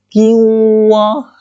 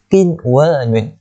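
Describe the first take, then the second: First: The n sound is merged into the w. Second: The n sound is clearly heard before the w. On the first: The speaker calls it wrong. "kita tak boleh nak baca kiwa" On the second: The speaker calls it right. "kita kena baca qinwanun"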